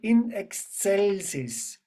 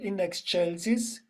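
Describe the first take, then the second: First: Excelsis is pronounced the Latin way. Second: Excelsis is pronounced the Italian way. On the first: The speaker calls it right. "we will do the Latin pronunciation" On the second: The speaker calls it wrong. "not the Italian"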